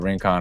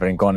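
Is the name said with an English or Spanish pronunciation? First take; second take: English; Spanish. First: The name is pronounced the English way. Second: The name is pronounced the Spanish way. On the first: "how people say it more in the English accent" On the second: "in the Spanish way"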